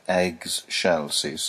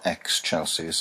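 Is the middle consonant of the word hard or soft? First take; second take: soft; hard. First: The middle consonant is pronounced soft. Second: The middle consonant is pronounced hard. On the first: The speaker calls it right. "I'd like an excelsis" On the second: The speaker calls it wrong. "I don't want a hard excelsis"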